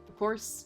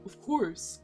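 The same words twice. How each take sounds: First: It is said in the speaker's normal voice. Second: It is said in Freddy's big character voice.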